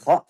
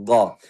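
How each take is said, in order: First: It starts with a voiceless raspy kh sound. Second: It starts with a hard stopped g sound. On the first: "bukan kha" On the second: "bukan ga"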